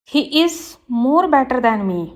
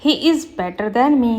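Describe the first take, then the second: First: Slow, careful read of the wrong sentence; slow teacher dictation. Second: Slow, careful read of the corrected sentence; slow teacher dictation. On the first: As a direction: spell it out word by word for the class. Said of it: "wrong है". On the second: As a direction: lay out each word clearly for the class. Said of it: "right होगा". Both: Shown as a demonstration.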